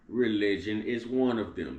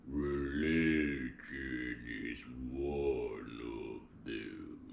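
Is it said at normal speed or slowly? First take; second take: normal speed; slowly. First: It is said at normal speed. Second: It is said very slowly.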